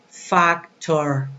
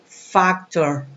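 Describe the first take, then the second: No difference in how they are said.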